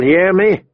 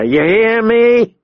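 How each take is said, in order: First: Brisk, raised-pitch threat; menacing demand. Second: High, drawn-out, rising yell; angry escalated demand. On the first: Big man bullying the captive boy, menacing. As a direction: tack it on as a threat. First demand, before twisting harder. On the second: Big man hurting the boy harder, angrily demanding. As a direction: stretch the question up into a yell. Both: A narrator's reading.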